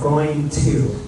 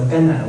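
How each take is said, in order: First: The 'to' is pronounced fully with its vowel. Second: The 'to' is reduced to an unstressed schwa. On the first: "不是 going to" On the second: "we sometimes change the sound to a, a schwa sound, like a more unstressed sound"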